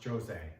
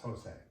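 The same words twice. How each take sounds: First: The first sound is like English J. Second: The first sound is like English H. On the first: The speaker calls it wrong. "it's not pronounced Jose" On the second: The speaker calls it right. "the J actually sounds like an H in English"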